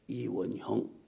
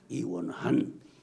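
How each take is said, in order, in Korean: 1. 마지막 음절은 hyeong처럼 들립니다. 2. 마지막 음절은 han처럼 들립니다.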